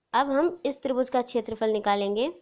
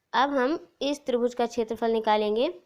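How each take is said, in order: No difference in how they are said.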